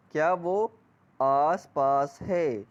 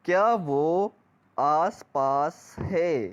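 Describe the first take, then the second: No difference in how they are said.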